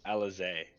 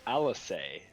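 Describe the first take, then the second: First: The middle consonant is a Z sound. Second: The middle consonant is an S sound. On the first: "He pronounces it ... with the Z sound? Yeah" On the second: "They don't say"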